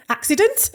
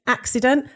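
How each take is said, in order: First: High, rising disbelief at the slip; amused self-query. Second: Said in the usual way. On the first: Real, not acted. Guest catches her slip on "accent", amused high query. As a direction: query your own blunder, pitched right up.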